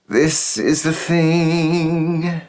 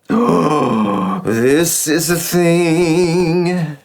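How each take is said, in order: First: An audible voiceless breath precedes the phrase. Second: An audible voiced breath precedes the phrase. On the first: "it could be voiceless" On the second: "Or voiced"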